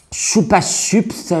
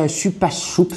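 First: "choupa chups" drawn out slowly with ou; "choupa chups" dit lentement avec le son ou; pronounced choupa. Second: "chupa choups" with u then ou, quick and soft; "chupa choups" rapide, finale en ou; pronounced choups. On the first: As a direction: stretch "choupa chups" slowly, saying ou not u. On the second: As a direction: try "chupa choups", ending on ou. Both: Shown as a demonstration. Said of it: "je sais pas comment ils disent les jeunes".

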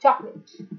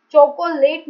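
First: चॉकलेट said "chok-let", two syllables; right take of चॉकलेट; silent middle o. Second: चोकोलेट said with the middle o sounded; the wrong "cho-co-late"; wrong take of चोकोलेट; wrong pronunciation. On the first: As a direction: correct चॉकलेट, the o dropped. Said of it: "बीच वाला जो ओ है उसकी sound silent है". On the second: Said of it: "चोकोलेट नहीं बोलना है". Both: Shown as a demonstration.

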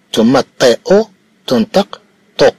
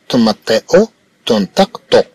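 Both takes have the same delivery.

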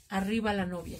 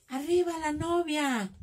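First: Said in the usual way. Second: Higher, drawn-out imitation of a wedding cheer; mock wedding cheer. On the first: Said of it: "cuando alguien grita". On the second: Crafter imitates guests cheering the bride at a wedding, mock shout. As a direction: call it out slowly like a guest cheering. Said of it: "Cuando gritan".

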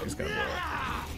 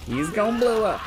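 First: Silly high voice. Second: Said in the usual way. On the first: Pretend. Repeats warning in silly voice.

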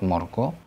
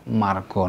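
First: "morgo" said "mor-gaw", first vowel rounded o; "morgo" with o before the r; wrong O vowel. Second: "margo" said "mar-gaw", first vowel open ah; "margo" with ah before the r. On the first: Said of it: "not morgo". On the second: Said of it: "A followed by R is always pronounced". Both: Shown as a demonstration.

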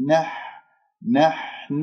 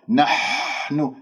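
First: نحن softly, with a light short ح; thin ha. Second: نحن with a long, forced rush of air on ح; scraped ha. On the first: Teacher models the delicate letter: light, unforced ح in نحن. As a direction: release little air on the ح of نحن. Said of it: "الحاء رقيقة". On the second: Teacher shows the faulty ha: air-heavy, drawn-out ح in نحن. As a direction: push too much breath through the ح of نحن. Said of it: "خطأ". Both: Shown as a demonstration.

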